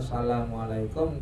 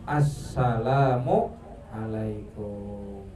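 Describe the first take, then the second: First: The greeting is said quickly and clipped. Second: Every syllable of the greeting is fully pronounced. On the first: The speaker calls it wrong. "jangan dibaca asal" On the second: The speaker calls it right. "tapi lengkap"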